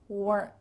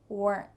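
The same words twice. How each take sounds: The two takes are said the same way.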